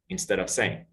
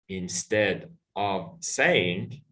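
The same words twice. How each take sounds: First: The words run together with no breaks between them. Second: Each word is pronounced separately, one by one.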